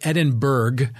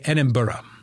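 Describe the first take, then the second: First: The ending sounds like the end of Pittsburgh. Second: The ending does not sound like Pittsburgh. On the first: This is how outsiders say it. "I guess Americans would say Edinburgh, because that's the way it's spelled, like Pittsburgh" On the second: This is how people there say it. "But the locals say Edinburgh"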